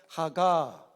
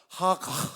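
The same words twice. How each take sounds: First: It is read the Korean way, ending on a vowel. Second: It ends with a bare final consonant, no vowel. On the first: The speaker calls it wrong. "우리처럼 하가 이렇게 발음한 게 아니라" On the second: The speaker calls it right. "하가 이렇게 발음합니다"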